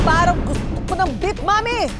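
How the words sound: The line is said in an angry, furious tone. "At ang panghuli ng aamok"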